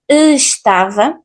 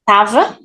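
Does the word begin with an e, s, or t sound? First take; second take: e sound; t sound. First: Every sound is pronounced, starting on e. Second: The first syllable is dropped, starting on t. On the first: The speaker calls it wrong. "we pronunciate everything, estava, actually this way is not that normal" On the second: The speaker calls it right. "We can cut the first syllable"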